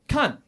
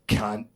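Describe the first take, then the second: First: Positive usage. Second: Negative usage. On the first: Comic demoing the friendly Australian usage, upbeat. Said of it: "demonstrate the difference between positive usage". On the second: Comic demoing the insulting Australian usage, hostile. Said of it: "and negative usage". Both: Shown as a demonstration.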